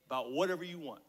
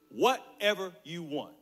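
First: Said in the usual way. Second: "Whatever you want" slow, each word separated; emphatic repeat. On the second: Acted. Dad making his son a big offer, "Whatever you want" slow and emphatic. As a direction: spell out "Whatever you want" slowly and weightily.

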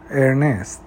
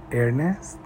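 First: ارنست stated with a falling tune; confirming fall. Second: ارنست asked with a rising, softer tune; questioning rise. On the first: Ivy answers Lena, confirming the name with a falling tune. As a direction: settle the name ارنست firmly as a fact. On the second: Lena echoes the name, surprised, with a rising tune. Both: A narrator's reading.

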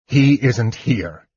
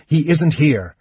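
First: Slow, hard, bitter repeat; harsh repeat. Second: Said in the usual way. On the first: A narrator's reading. Knight turns away and repeats it harshly, slowly. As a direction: grind the words out slowly. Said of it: "he repeated harshly".

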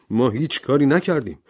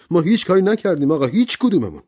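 First: A mild angry protest. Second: Higher, faster angry insistence. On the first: Servant Rogers protesting to the judge, mildly angry. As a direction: protest the accusation. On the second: Servant Rogers insisting to the judge, louder and angrier. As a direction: push harder, escalating. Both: Acted. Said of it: "با عصبانیت گفت".

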